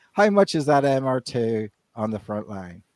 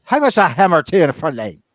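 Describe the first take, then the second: First: Said in the usual way. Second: A hint of a thick Irish accent, louder and higher; imitating Irish accent. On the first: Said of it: "You know". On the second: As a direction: mimic the Irish customer in an Irish lilt. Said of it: "He goes".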